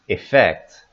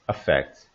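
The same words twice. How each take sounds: First: The first vowel is a short 'ih'. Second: The first vowel is a weak schwa. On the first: "Here they're recommending the I" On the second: "they wrote the first sound here as the schwa"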